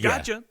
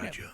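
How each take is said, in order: First: It is said loudly, as an exclamation. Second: It is said in a whispery voice.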